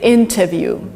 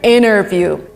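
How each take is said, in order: First: The T sound is clearly pronounced. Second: The T sound is dropped completely. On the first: This is the British pronunciation. "In Great Britain, you would say interview" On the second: This is the American pronunciation. "In America, ... So T here just disappears"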